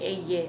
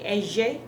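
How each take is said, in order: First: The middle consonant sounds like a y. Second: The middle consonant is not a y sound. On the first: Other regions say it this way. "others would say eye, like it's a Y" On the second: Some regions say it this way. "some people would say eje"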